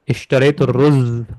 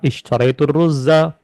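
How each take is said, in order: First: The last word ends without any final vowel. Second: The last word ends with a short a vowel. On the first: The word is given its pausal form. "kalau nggak mau dibaca, disukun" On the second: The case ending is read out. "kalau mau dibaca maka harus dibaca dengan fathah"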